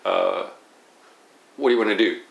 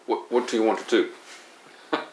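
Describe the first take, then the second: First: The t sounds are soft, flapped like a quick d. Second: The t sounds are crisp and clearly released. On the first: "such as flaps, like" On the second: "Instead of"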